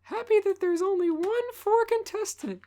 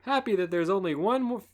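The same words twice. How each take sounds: First: Put-on high girly voice; squeaky high girly voice; girly girl voice. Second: Lightly voiced host; host announcer voice; [name] voice. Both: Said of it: "make Dawn a girly girl".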